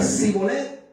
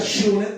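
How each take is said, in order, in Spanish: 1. La palabra empieza con un sonido s. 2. La palabra empieza con un sonido sh. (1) "el que decía Sibolet, no" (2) "El que decía Shibolet, ese sí"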